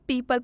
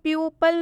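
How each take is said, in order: First: The first syllable sounds like 'pee'. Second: The first syllable sounds like 'pyoo'. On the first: The speaker calls it right. "इसे हम पीपल पढ़ रहे हैं" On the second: The speaker calls it wrong. "इसे हम प्यूपल नहीं पढ़ रहे"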